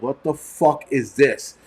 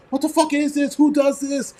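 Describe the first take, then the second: First: Slow, drawn-out disbelief; retold disbelief. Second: High-pitched yell, held back in volume; mock screaming. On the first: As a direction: imitate a stunned, slow reaction. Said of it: "we all looked at each other like". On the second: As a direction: imitate a table shrieking in outrage. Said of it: "We all started screaming and yelling".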